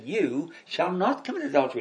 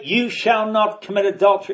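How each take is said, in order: First: It is said as a reassuring promise. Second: It is said as a stern command.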